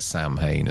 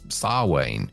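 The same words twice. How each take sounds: First: It is pronounced as spelled, 'sam-hain'. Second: It is pronounced 'sow-in', not as spelled. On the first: This is how the earlier film said it. The speaker calls it wrong. "they call it Samhain as well" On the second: This is the actual pronunciation. The speaker calls it right. "which we all now all know now is Samhain"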